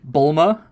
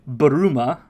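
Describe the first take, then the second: First: It is said as two syllables, Bul-ma. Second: It is said as three syllables, Bu-ru-ma. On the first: "English version" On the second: "which is her Japanese name"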